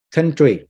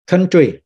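The two takes are said the same way.

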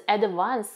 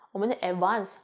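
First: Advance with a clear stressed syllable and a rising end; stress on first syllable. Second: Advance with the stress flattened, the 的 barely pronounced, Malaysian style; 我们的advance, said flat with no stressed syllable. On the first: Showing classmates the European stressed advance. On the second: Malaysian student showing her own unstressed advance. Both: Shown as a demonstration. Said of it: "他们的那个的要念出来".

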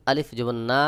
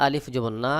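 The two takes are said the same way.

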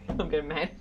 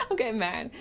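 First: Said in the usual way. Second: Said higher with rising annoyance; getting mad. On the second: Real, not acted. Telling the viewers she's getting mad, higher and irritated. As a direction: let real irritation push the pitch up.

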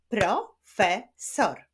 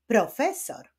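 First: "profesor" slowly split into pro, fe, sor; syllable by syllable. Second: Said in the usual way. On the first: Shown as a demonstration. Teacher claps out "profesor" for pupils, slowly, syllable by syllable. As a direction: clap out "profesor" with a pause after each syllable. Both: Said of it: "Wyklaszczmy sylaby w tych wyrazach".

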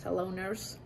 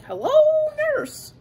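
First: Said in the usual way. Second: Squeaky high cartoon swoon on nurse; Animaniacs catchphrase. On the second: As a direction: leap way up for a cartoon wolf-whistle hello. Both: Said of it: "Remember that from Animaniacs?".

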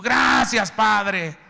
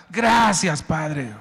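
First: Much higher, louder shout of thanks. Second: High, loud thanks to God; loud grateful cry. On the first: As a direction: belt out the gratitude. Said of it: "Y tú". (gritando gracias a todo pulmón) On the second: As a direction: shout your thanks anyway. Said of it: "No vendiste nada". (gritando gracias con fuerza) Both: Acted.

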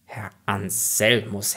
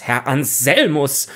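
First: Slow, softer first call; restrained warning call. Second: Slow, firmer second call; insistent call. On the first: Rector calling the raving student, restrained and slow. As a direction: draw the name out softly in warning. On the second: Rector calling the raving student, insistent. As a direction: call the name with more force. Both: Acted. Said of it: "rief der Konrektor Paulmann".

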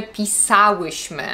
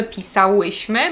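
First: "pisałyśmy" stressed on SA, falling after it; stress third from last. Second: "pisałyśmy" stressed on ŁY, rising; wrong penultimate stress. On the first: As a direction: hit SA in "pisałyśmy" and keep ŁY light. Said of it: "Akcent na trzeciej sylabie od końca". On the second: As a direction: put the accent on ŁY in "pisałyśmy". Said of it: "Nie mówimy". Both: Shown as a demonstration.

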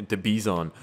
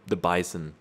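First: "Bison" said as bee-ZON; "Bison" with an ee and a full -zon; mispronounced Bison. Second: Said in the usual way. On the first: Real, not acted. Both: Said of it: "it's called a Bison".

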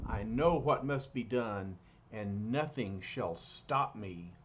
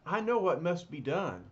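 First: A grim vow from a dark stranger; brooding villain resolve; ominous alien figure. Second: Louder, firm resolve; Reed takes charge with certainty; confident leader's declaration; decisive hero. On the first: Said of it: "He thinks". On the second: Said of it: "Reed says". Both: Acted.

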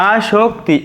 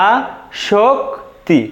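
First: Said in the usual way. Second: "আশক্তি" very slowly as aa, shok, ti; slow correct pronunciation. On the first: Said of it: "এটাই কিন্তু আমাদের আশক্তি এর শুদ্ধ". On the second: Shown as a demonstration. Teacher repeating the correct pronunciation for students, slow and syllabic. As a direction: break "আশক্তি" into three spaced syllables. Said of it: "উচ্চারণ".

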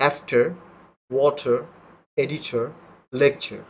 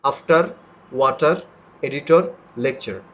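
First: After, water, editor, lecture all with a silent final r; native pronunciation. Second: After, water, editor, lecture said the Bengali way, r sounded; the Bengali way, r clear; our way of saying it. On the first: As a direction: drop every final r. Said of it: "আরগুলো কিন্তু আমি উচ্চারণ করিনি". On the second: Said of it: "কিন্তু আমরা কিভাবে করি". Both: Shown as a demonstration.

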